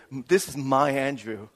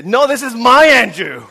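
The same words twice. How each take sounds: First: Slow introduction leaning on "my"; stress on MY. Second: Loud, high mock protest; Miran's possessive outburst. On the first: Acted. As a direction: possessive weight on "my". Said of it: "started introducing Andrew as". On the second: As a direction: jump in and claim him, shouting "my". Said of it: "Miran will jump in and she'll say".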